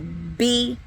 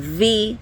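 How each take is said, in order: First: The letter is said as a stop, b. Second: The letter is said with friction, v. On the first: The letter has a dagesh. "that plosive sound, a stop sound" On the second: The letter has no dagesh. "it's going to have a fricative sound"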